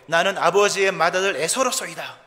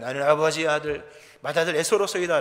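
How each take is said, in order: First: It is said in a normal voice. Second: It is said in a lowered, deep voice.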